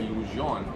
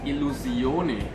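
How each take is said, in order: First: The name is said with French pronunciation. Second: The name is said without French pronunciation. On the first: The speaker calls it wrong. "I pronounced it with a French pronunciation a little earlier" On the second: The speaker calls it right. "it is actually pronounced Illusione"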